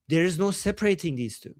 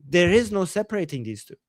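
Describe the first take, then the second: First: Said in the usual way. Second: IS punched firmly in "There is no"; insistent emphasis landing on "is"; stress on IS. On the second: Real, not acted. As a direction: lean hard on the word "is". Repeats conclusion, stressing is.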